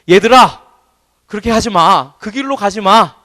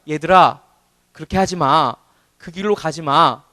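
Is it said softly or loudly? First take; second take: loudly; softly. First: It is said in a louder voice. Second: It is said at a normal, softer volume.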